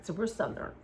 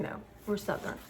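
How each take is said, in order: First: Said in the usual way. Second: Breathy near-whisper, stubbornly correcting; hushed insistence. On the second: Real, not acted. Vlogger rejecting the Mid-Atlantic label, hushed and insistent. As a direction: whisper it back like a private correction.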